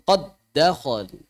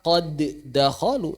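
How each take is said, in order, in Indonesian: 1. Huruf d pada qad langsung menyatu dengan dakhalu. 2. Huruf d akhir pada qad punya pantulan bergema. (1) "tapi langsung" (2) "Jangan dibaca"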